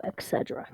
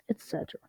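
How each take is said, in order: First: "et cetera" with a k for the first t, low-volume. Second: "et cetera" with its t sounded, under the breath. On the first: Reader slips on the word, "et cetera" said as "ek-setera". Slip, then corrects it. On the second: Reader corrects the slip, "et cetera" said as "et-setera". Re-says the word with a t. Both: Real, not acted.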